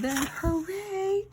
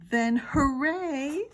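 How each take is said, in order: First: Higher, slower drawn-out cheer; hooray. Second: Excited hooray. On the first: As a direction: cheer it with full joy. Re-read after apology. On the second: Misread then re-read line. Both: Shown as a demonstration.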